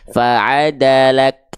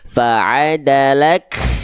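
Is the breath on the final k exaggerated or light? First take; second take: light; exaggerated. First: The final k has a light, natural puff of breath. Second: The final k has a heavy, exaggerated puff of breath. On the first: The speaker calls it right. "biasa aja" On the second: The speaker calls it wrong. "melafalkannya berlebihan"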